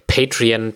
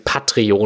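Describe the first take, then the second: First: Patreon said the English way, PET-ree-on; English pronunciation. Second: Patreon said the German way, PAT-re-o, falling; German pronunciation. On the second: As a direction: patreon read out letter by letter in German. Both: Shown as a demonstration.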